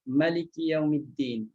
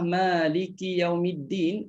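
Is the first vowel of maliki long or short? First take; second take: short; long. First: The first vowel of maliki is short. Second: The first vowel of maliki is long.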